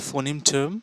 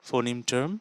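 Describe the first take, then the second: The two takes are said the same way.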